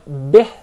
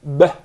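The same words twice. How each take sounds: First: BIH with spread lips, loud; smiled kasrah. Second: BEH with a lax "eh" vowel; mispronounced kasrah. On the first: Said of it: "the kasrah is with a smile". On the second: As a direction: let the short I open into eh in beh. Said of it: "commonly mispronounced to be beh". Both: Shown as a demonstration.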